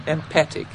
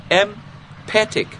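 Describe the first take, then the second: First: Said in the usual way. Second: Empathic said slowly with a hard, loud P; slow, louder Empathic with a punched P. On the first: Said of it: "yes, a loud P must". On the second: Shown as a demonstration. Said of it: "said it with a loud P".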